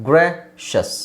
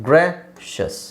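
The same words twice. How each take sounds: Both takes have the same delivery.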